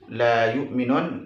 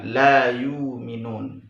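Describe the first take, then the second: First: A glottal stop is heard inside yu'minun. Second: The glottal stop becomes a long vowel. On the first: This follows one transmitted reading. "dibaca sebagaimana bacaan dalam riwayat Hafs" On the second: This follows another transmitted reading. "membacanya dengan ibdal"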